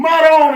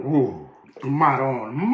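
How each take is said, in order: First: "maron" exclaimed high and loud, falling sharply; a sudden high Italian exclamation; burst of maron. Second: "ooh, maron" stretched slow, maron rising at the end; a slow, savouring Italian exclamation; drawn-out ooh maron. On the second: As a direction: savour the smell and let maron drag out long and rising. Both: Real, not acted. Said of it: "as they say".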